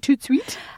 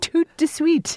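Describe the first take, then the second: First: The middle syllable de is left out. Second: The middle syllable de is fully pronounced.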